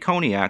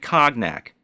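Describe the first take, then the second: First: The word is said the standard way. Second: The word is sounded out as spelled. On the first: This is how it should be said. The speaker calls it right. "She didn't say cognac" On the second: The speaker does not know the word. The speaker calls it wrong. "she sounded it out like a five year old would"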